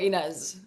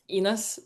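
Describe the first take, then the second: First: The name is pronounced without Norwegian sounds. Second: The name is pronounced the Norwegian way. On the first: This is how the name's owner says it. "so it's like I go Inez" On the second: This is how the mother says it. "My mom says um Ines, but it's like with a Nor in Norwegian"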